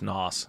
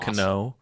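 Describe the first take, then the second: First: The name begins with an N sound. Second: The name begins with a spoken K sound. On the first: "or is it just Nos?" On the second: "I wonder if we pronounce the K in that"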